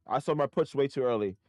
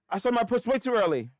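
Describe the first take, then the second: First: Said in the usual way. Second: Frustrated cry. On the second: Real, not acted. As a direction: blurt it out in real annoyance. Same line said plainly before.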